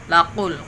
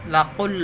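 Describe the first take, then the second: No difference in how they are said.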